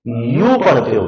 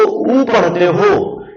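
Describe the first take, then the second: First: यू said with a y glide, "yoo"; यू starting on a clear y, set against उ; "yoo" sound. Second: उ said as a pure "oo", no y glide; उ as a bare vowel, set against यू; vowel sound "oo". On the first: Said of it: "क्या पढ़ते हो?". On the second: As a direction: sound out उ as a plain Hindi "oo". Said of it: "अगर आप इसको उ पढ़ते हो". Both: Shown as a demonstration.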